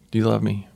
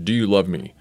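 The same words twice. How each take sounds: First: It sounds relaxed, warm and friendly. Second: It sounds harsh and confrontational. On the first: The speaker is gently reassuring a friend. The speaker calls it right. "puts his arm around him and says, hey, pal" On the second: The speaker is challenging and reproaching the listener. The speaker calls it wrong. "see Jesus as coming at Peter with the"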